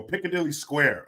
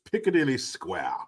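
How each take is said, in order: First: Said in the usual way. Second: Mock-British, with "Square" ending r-less; British accent. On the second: Repeats it in put-on British accent.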